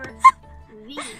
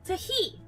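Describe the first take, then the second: First: It starts with a th sound. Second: It starts with a t sound, then "he". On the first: The speaker calls it wrong. "I always hear people say the or the. But it's not" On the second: The speaker calls it right. "the proper way to pronounce that word"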